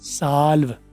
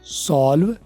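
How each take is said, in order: First: The vowel is an open 'ah' sound. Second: The vowel is a rounded 'o' sound. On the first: This is the American pronunciation. "अगर ओ को अली मदा करके बोलो ... तो ये बन जाता है American language" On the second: This is the British pronunciation. "अगर ओ को ओ ही रहने दूं मैं ... तो ये ब्रिटिश लैंग्वेज है"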